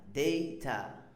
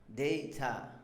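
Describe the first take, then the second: No difference in how they are said.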